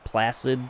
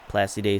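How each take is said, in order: First: It sounds like the English word placid. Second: It sounds French, with the final e sounded. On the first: The speaker calls it wrong. "Placid just doesn't sound right for a French speaker" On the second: The speaker calls it right. "I just think Placide sounds better"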